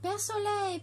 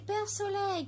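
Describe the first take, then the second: First: High, calling call to the sun; a mild call to Père Soleil. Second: High, repeated call to the sun; a mild echoing call to Père Soleil. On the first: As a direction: call up to the sky. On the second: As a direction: call again, reaching upward. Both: A narrator's reading. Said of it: "cria Perlette".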